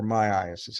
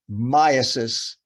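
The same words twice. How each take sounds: First: Myiasis said my-EYE-uh-sis, four syllables; alternative pronunciation. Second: Myiasis said MY-uh-sis, stress up front; variant pronunciation. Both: Shown as a demonstration. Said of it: "however you want to pronounce it".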